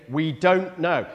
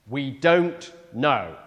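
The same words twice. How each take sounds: First: Said in the usual way. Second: Slow, weighty "We don't know" with stress on "don't"; emphatic. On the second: Real, not acted. Preacher pressing the key point to the congregation, slow and emphatic. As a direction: land "don't" hard and slowly, letting each word sit. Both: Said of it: "That is a major emphasis".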